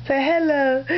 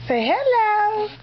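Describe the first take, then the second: First: Said in the usual way. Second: High slow coo of hello. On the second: Real, not acted. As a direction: draw out hello sweetly for the little one. Coaxing baby to greet viewers.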